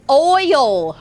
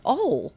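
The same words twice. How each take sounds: First: "oil" drawn out with a full oy glide; loud, high, slow "oil", exaggerated oy sound; standard "oil". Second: "Ole" for oil, in one syllable; Southern "oil". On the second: Retold or imitated. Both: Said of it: "Oh, you mean oil".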